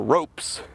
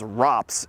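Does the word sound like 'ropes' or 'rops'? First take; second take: ropes; rops. First: The word sounds like 'ropes'. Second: The word sounds like 'rops'. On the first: The speaker calls it wrong. "refer to this as the ropes" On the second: The speaker calls it right. "pronounce this as ROPS"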